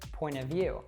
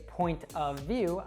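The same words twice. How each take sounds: First: The word of is reduced to uh. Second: The word of is said in full. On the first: The speaker calls it right. "I would say point of view" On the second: The speaker calls it wrong. "I wouldn't say point of view"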